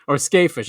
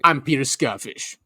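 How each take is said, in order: First: Skafish said as SKAY-fish; long A pronunciation. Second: Skafish said as SKAH-fish; broad A pronunciation. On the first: Shown as a demonstration. Host corrects the scholar's name to SKAY-fish. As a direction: offer Skafish with SKAY as first syllable. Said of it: "I think it's Skafish". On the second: Acted. Host plays the scholar introducing himself, SKAH-fish. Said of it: "he's making fish, fish lips too".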